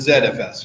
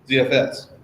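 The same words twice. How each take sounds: First: It is said with a British accent. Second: It is said without a British accent.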